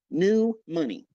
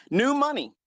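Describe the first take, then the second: First: Said in the usual way. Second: Mock sneer. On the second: Sneering punchline.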